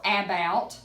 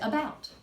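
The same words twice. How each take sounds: First: The first vowel is said fully and clearly. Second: The first vowel is a quick, reduced sound. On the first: The speaker calls it wrong. "We don't say about" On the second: The speaker calls it right. "We say about. ... We barely say it"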